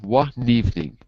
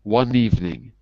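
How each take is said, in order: The two takes are said the same way.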